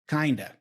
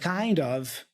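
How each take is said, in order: First: The two words are reduced and run together. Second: The two words are said fully and separately.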